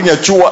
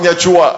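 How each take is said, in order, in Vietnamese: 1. Từ này được phát âm với thanh điệu giọng Nghệ An. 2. Từ này được phát âm với thanh điệu giọng Nghệ An.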